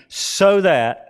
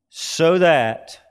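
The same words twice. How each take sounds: First: So that said high and loud, falling; stressed so that. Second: "So that" said a little higher and louder, falling; repeated so that. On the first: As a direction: lean hard on "so that". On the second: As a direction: repeat "So that" with weight. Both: Shown as a demonstration. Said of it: "and that's a hina clause".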